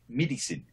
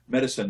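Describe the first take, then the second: First: Medicine said as "midisen", short i vowel; South African vowel in medicine. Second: Said in the usual way. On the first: Shown as a demonstration. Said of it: "they say medicine". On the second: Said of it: "instead of saying medicine".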